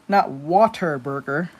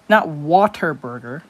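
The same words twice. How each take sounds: Both takes have the same delivery.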